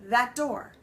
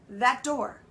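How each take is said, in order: The two takes are said the same way.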